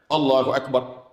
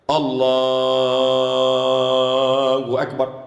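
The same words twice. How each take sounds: First: The takbir is said short and quick. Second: The takbir is drawn out long.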